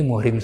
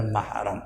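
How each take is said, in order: First: Muhrim with u in the first syllable, i in the second; common mistaken reading. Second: Mahram with a in the first syllable; corrected reading mahram. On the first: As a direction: say muhrim as "muh-rim". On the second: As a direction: say mahram as "mah-ram". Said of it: "Yang benar mahram". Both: Shown as a demonstration.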